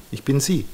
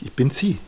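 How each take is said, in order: First: Falling, settled tune on "sie"; "ich bin sie" stated as a final confirmation; firm realization. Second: Questioning rise on "sie", higher pitch; "ich bin sie" asked as a stunned discovery; dawning realization. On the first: Client confirming she is her mother, conclusive. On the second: Client realizing she is her mother, half-asking. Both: Retold or imitated. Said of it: "Und habe ich gemerkt".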